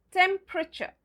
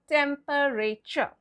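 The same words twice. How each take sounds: First: TEMPERATURE shortened to tem-pruh-cher; silent E. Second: TEMPERATURE drawn out slowly as tem-per-ay-cher; four slow full syllables in TEMPERATURE, tem-per-ay-cher; spelling pronunciation. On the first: Teacher repeats the correct way, TEMPERATURE as tem-pruh-cher. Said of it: "The E is silent". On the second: Teacher repeats the mistake, TEMPERATURE slowly as tem-per-ay-cher. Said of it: "Well, that's wrong". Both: Shown as a demonstration.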